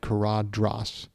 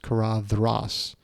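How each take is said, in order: First: The middle consonant is a hard d sound. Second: The middle consonant is a soft th sound. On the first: The speaker calls it wrong. "I've always said Caradhras" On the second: The speaker calls it right. "soft th like then"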